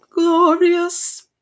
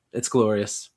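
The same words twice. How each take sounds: First: A much higher, louder gleeful cry. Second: Said in the usual way. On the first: Real, not acted. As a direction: savour the word, crowing it out. Gloating over rival's loss.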